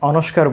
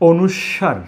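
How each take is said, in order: First: The word has a 'k' sound before the end. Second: The word has no 'k' sound before the end. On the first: The speaker calls it wrong. "ভুল শিখেছি, অনস্কার বলতাম" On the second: The speaker calls it right. "এটিকে আমরা বলবো অনুস্বার"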